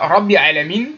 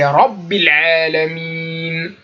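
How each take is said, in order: First: The doubled consonant is not marked. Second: The doubled consonant is clearly marked. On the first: The speaker calls it wrong. "C'est pas" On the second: The speaker calls it right. "Il faut bien marquer la shadda"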